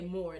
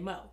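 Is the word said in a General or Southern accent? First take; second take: General; Southern. First: It is said in the speaker's own accent. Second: It is said in a Southern accent, r dropped.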